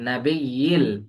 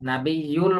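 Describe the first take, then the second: First: The vowel before the final L is 'i'. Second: The vowel before the final L is 'u'. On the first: The speaker calls it right. "নাবিয়্যিল, ইল" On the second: The speaker calls it wrong. "নাবিয়্যুল বলা যাবে না"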